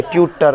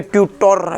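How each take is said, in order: First: ट्यूटर ending in a short "-tar"; correct reading demo. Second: ट्यूटर ending in a full round "-tor"; wrong reading demo. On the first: Teacher models the rule for students, ट्यूटर with short "-tar". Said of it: "पहले अ पढ़ेंगे". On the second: Teacher shows students the reading to avoid, ट्यूटर with "-tor". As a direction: say ट्यूटर with a clear o before the r. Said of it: "ऐसे नहीं पढ़ेंगे". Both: Shown as a demonstration.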